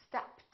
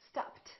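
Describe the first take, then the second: The two takes are said the same way.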